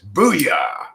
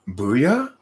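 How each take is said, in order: First: It falls firmly at the end, with authority. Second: It rises at the end like a question.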